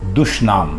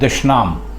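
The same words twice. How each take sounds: First: The first vowel is a 'u' sound. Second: The first vowel is not a 'u' sound. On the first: The speaker calls it right. "दाल के ऊपर पेश है" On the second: The speaker calls it wrong. "ये गलत है"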